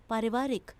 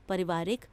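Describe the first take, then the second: First: Said in the usual way. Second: पारिवारिक with a short first a, pə-rivaarik; wrong form read. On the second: Shown as a demonstration. Teacher showing pupils the error: पारिवारिक with a short pa. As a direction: say पारिवारिक clipping the opening aa. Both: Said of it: "आ की मात्रा होनी चाहिए".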